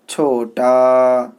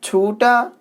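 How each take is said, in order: First: छोटा with a clear o, slow and full; majhul reading. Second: छोटा said chhuta with u, high rising; other reading. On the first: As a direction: read छोटा as chhota, long o. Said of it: "यहाँ पे छोटा perfect माना है". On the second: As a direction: say छोटा as chhuta, lifting the pitch. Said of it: "दूसरा माना आता है". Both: Shown as a demonstration.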